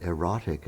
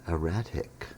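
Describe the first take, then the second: First: EROTIC as "ih-ROT-ik"; mistaken British pronunciation. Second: ERRATIC as "ih-RAT-ik"; careful ih-RAT-ik for ERRATIC; corrected word. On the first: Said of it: "if you pronounced it erotic". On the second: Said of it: "I think you meant". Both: Retold or imitated.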